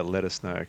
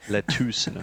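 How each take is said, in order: First: Said in the usual way. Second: "Let us" run together like "lettuce", with a long "oo"; exaggerated "let-TOOS" for "Let us"; lettuce pun. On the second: Shown as a demonstration. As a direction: say "Let us" as "let-TOOS", then "know". Replays phrase as lettuce pun.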